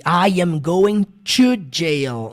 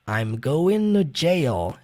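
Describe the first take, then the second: First: Every word is said in full, with a clear T. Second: The words are contracted and 'to' sounds like 'no'. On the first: The speaker calls it wrong. "Eles não falam" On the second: The speaker calls it right. "É desse modo que ele pronuncia"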